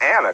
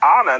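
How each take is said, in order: First: The name gets an English pronunciation. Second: The name gets a Spanish pronunciation. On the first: The speaker calls it wrong. "not Anna" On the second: The speaker calls it right. "I took some Spanish classes ... and I pronounced it right"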